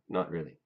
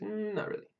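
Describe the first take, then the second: First: It is said flatly, without reaction. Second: It is said with expressive, reactive intonation.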